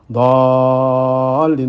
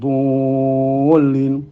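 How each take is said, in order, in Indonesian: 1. Konsonan tebal diikuti vokal terbuka seperti a. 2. Konsonan tebal diikuti vokal bulat seperti u.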